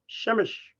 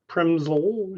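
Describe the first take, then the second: First: The name is said in a Polish way. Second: The name is said in an anglicized way. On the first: The speaker calls it right. "you pronounce it Przemyśl" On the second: The speaker calls it wrong. "you don't pronounce it Przemysl"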